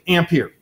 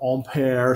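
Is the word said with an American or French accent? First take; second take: American; French. First: It is said with an American accent. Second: It is said with a French accent. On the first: "being an American, this is a word I'm just going to mispronounce" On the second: "if we were French, we would say this differently"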